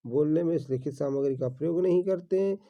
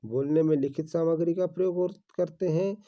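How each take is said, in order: First: नहीं stressed as the correction, slightly quicker. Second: Said in the usual way. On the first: Shown as a demonstration. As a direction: lean on नहीं to fix the wrong statement. (नहीं पर ज़ोर देकर सुधारते हुए) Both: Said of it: "गलत बात है दोस्तों".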